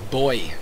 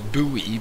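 First: The word sounds just like 'boy'. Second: The word does not sound like 'boy'. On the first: "this voice actor pronounces it as Boy" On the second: "The way I've learned that word is Buoy"

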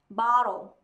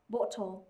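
First: The vowel is an open American ah sound. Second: The vowel is a rounded British o sound.

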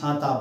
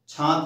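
First: The word ends on an open vowel sound. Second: The word ends on a consonant sound. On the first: The speaker calls it right. "छाता अपने आप" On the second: The speaker calls it wrong. "छात नहीं"

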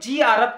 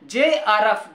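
First: The first letter is said as 'jee'. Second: The first letter is said as 'jay'. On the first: The speaker calls it wrong. "अधिकतर बच्चे जीआरएफ को जीआरएफ कहते हैं" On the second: The speaker calls it right. "लेकिन real में जेआरएफ होता है"

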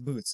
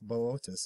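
First: The word is said as one short syllable. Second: The word is said with three separate syllables. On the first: The speaker calls it wrong. "it looks like boots" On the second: The speaker calls it right. "It's Boötis, I believe"

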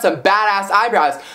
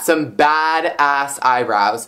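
First: It is said in an admiring, impressed tone. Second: It is said in a disgusted, disapproving tone. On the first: The eyebrows look impressively good. "not like badass eyebrows, like, yo" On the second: The eyebrows look bad and unkempt. "that is not in a good way"

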